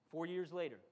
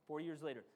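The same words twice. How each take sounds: The two takes are said the same way.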